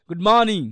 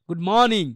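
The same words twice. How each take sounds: The two takes are said the same way.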